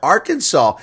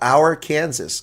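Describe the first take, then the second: First: The word ends with a plain 'saw' sound. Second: The ending is said like the word 'Kansas'.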